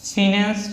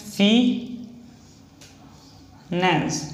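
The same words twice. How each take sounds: First: Said in the usual way. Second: फी then a long pause then नेंस; split into syllables. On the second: Shown as a demonstration. Shorthand teacher sounding out फिनेंस syllable by syllable for students. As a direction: break फिनेंस into फी and नेंस with a gap between. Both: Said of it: "फिनेंस, F E का".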